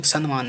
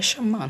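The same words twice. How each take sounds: First: सम्मान said san-maan, with n before m; wrong consonant. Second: सम्मान with a doubled m; corrected consonant. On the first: Teacher showing the mistake, सम्मान with nm. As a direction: put an n in the middle of सम्मान. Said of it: "सम्मान नहीं होता है". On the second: Teacher giving the correct word, सम्मान with double m. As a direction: hold the mm in सम्मान. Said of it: "सम्मान होता है". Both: Shown as a demonstration.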